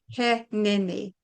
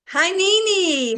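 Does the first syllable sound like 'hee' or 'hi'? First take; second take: hee; hi. First: The first syllable sounds like the English 'he'. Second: The first syllable sounds like the English 'hi'. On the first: The speaker calls it right. "It's pronounced he Nini" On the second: The speaker calls it wrong. "I kept going"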